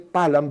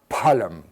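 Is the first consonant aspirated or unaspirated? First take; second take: unaspirated; aspirated. First: The first consonant is said without aspiration. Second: The first consonant is said with aspiration. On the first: The speaker calls it wrong. "you don't say Phalam" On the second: The speaker calls it right. "but Phalam"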